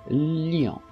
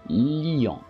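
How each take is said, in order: The two takes are said the same way.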